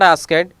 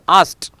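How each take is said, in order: First: The ending is said as an extra syllable. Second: The ending adds no extra syllable. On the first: The speaker calls it wrong. "It is not asked" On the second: The speaker calls it right. "it is asked"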